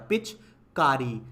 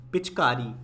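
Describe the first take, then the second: First: पिचकारी slowly, री held long; drawn out री. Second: Said in the usual way. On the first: Shown as a demonstration. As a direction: sound out पिचकारी, pull री. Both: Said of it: "ई खींच के आया".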